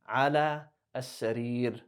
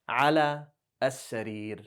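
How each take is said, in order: First: The last word ends on a bare consonant. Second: The last word ends on a bare consonant.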